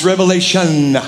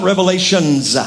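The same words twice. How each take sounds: First: "revelation" ending firmly on the N, no S; "revelation" as a singular, drawn to a clean N; correct singular form. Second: "revelations" with an S tacked on the end; wrong plural form. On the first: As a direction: say "revelation" deliberately, closing on "shun". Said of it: "It's revelation". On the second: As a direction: stress the final S of "revelations", as the mistake. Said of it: "It's not revelations". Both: Shown as a demonstration.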